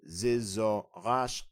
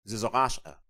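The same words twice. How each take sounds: First: "Zizaqasha" very slow, syllable by syllable, rising at the end. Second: Said in the usual way. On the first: Shown as a demonstration. Breaking down the word for learners, slow and rising. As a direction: stretch out each syllable of "Zizaqasha". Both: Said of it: "Now the phrase for "I am learning".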